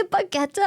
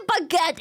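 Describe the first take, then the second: First: Baguette with an extra vowel at the end; mistaken German pronunciation. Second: Baguette ending on a t, silent e; German pronunciation. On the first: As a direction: sound out a final e on Baguette. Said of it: "No, we say baguette". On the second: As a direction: end baguette on the t sound. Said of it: "we say baguette in German". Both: Shown as a demonstration.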